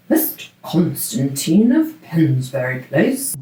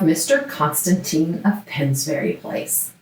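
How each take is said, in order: First: It is said in a put-on British accent. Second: It is said in the speaker's normal accent.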